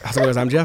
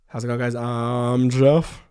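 First: It is said very fast. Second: It is said at normal speed.

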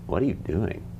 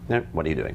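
First: The question is asked with strong, open emotion. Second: The question is asked in a flat, neutral voice. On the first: It carries a feeling the partner can react to. The speaker calls it right. "But what if we say it like this?" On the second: It is an empty request for information. The speaker calls it wrong. "That's the worst, that's empty"

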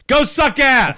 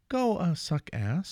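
First: It is said harshly, as an insult. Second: It is said nicely, like a polite request.

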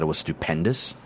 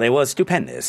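First: A blunt, tough, intimidating voice. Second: A put-on, sarcastic, gushing voice. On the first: The speaker is dismissive and threatening. The speaker calls it right. "responded to you like this" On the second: The answer is mocking the question. The speaker calls it wrong. "he was just making that voice being sarcastic"

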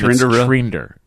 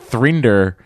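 First: The name begins with a plain t sound. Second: The name begins with a th sound. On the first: This is how the company pronounces its name. The speaker calls it wrong. "it's Trinder. For some reason" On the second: This matches how the name is spelled. The speaker calls it right. "Even though it's Thrinder... is much better name"

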